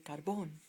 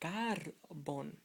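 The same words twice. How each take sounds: First: The stress is on the last syllable. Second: The stress is on the second-to-last syllable. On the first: The speaker calls it right. "but you want to say carbon" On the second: The speaker calls it wrong. "Knowing this rule, you would say carbon"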